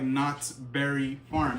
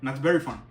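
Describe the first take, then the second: First: The words are said as separate, distinct words. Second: The words are blurred together into one word. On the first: "It didn't sound like" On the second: "it bled into one word"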